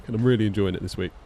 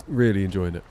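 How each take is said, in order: First: Said in the usual way. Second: Put-on Southern American accent. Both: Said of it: "The southerly American accent".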